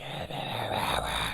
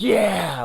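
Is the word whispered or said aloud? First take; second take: whispered; aloud. First: It is whispered in a scary way. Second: It is said aloud, like a cheer.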